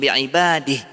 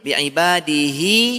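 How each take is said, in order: First: The word stops short with no final vowel. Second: The final vowel is held for two beats. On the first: The reciter pauses at this word. "Maka tidak ada mat" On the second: The word is joined to the next word. "Coba dua harakat aja nih"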